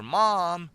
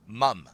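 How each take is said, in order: First: "mom" with a long, open "ah" vowel, loud; American "mom" pronunciation. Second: "mom" pronounced like "mum", rhyming with "drum"; British "mum" pronunciation. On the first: Streamer showing how his American nephew says it, "mom" with long open vowel. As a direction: stretch "mom" out the American way, like "mahm". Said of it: "He calls her mom because they're born here, they're Americans".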